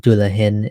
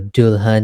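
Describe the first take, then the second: First: It is said in the Caribbean Hindustani form. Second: It is said in the standard Hindi form. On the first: "in Caribbean Hindustani" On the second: "in standard Hindi"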